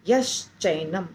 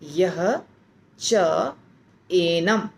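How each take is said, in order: First: The words merge into a single joined word. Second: Three separate words are said one after another. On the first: "तीनों को जब मिलाते हैं तो बन जाता है यश्चैनम" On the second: "यह, य के बाद विसर्ग"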